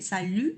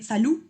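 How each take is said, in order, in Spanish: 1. La vocal es una u francesa redondeada y adelantada. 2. La vocal es una u española simple, redondeada. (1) "Si vieron la pronunciación de la U, sino dije salut" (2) "que no dice salud"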